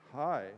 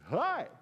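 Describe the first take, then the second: First: Said in the usual way. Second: High, loud, piercing little "Hi"; Pastor Dave. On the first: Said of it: "And I look at him, I go". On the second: Retold or imitated. Pastor popping up on his toes to greet, irritatingly high. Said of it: "he'd step on his toes when he talked like that".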